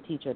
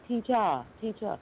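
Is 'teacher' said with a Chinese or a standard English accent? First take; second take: standard; Chinese. First: It is said with a standard English accent. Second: It is said with a Chinese accent. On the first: This is how the students do not say it. "They don't say teacher" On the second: This is how the students actually say it. "They say teacher"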